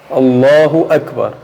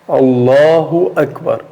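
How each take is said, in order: The two takes are said the same way.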